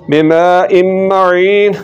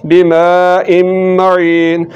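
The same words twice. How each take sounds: No difference in how they are said.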